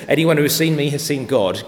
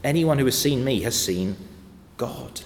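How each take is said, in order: First: "Anyone who has seen me has seen God" said louder and quicker, like a brash impostor in the pulpit; a hint of a pompous pretender claiming to be God; mock false preacher. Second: With credibility. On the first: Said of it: "If anyone ever stands up in this pulpit and says". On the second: Acted. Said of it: "But Jesus said with credibility".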